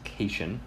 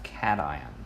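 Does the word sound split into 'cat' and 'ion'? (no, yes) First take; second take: no; yes. First: The word is not split into cat and ion. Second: The word sounds like cat followed by ion. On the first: The speaker calls it wrong. "it's easy to assume that it's pronounced cation. That's incorrect" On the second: The speaker calls it right. "like cat ion"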